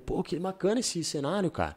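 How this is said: The voice is pitched fairly high and light. It comes across as a comfortable, casual opening. The speaker calls it right. "começar com um tom mais agudo, com um tom mais up"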